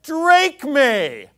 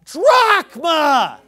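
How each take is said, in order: First: "Drachme" said loud as DRAKE-mee; mock a botched Greek "Drachme" as drake-mee; loud, scornful "Drachme" with a long A; mocked mispronunciation. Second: "drachma" shouted slowly as DROCK-ma; very loud, stretched "drachma"; emphatic correct pronunciation. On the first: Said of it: "sounding like an idiot because he says". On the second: Shown as a demonstration. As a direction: bellow the correction, drawing out "drachma" with an open ah. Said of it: "it's pronounced drachma".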